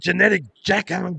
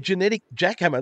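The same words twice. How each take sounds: First: It is said in an exaggerated impersonated voice. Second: It is said in a plain conversational voice. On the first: The speaker calls it right. "You got to say genetic jackhammer in the Vince voice" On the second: The speaker calls it wrong. "You can't just say that like normal conversation"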